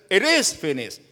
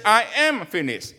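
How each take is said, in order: First: "It is finished" with "is" leaned on; stress on is. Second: "I am finished" with "am" hit and falling; stress on am. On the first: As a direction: correct the quote by hitting "is". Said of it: "He said". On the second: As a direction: press "am" as the misquote. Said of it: "He didn't say". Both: Shown as a demonstration.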